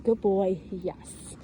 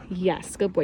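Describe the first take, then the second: First: Calm praise. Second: Said in the usual way. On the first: Shown as a demonstration. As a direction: praise him calmly, no excitement. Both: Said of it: "Don't get overexcited with your voice".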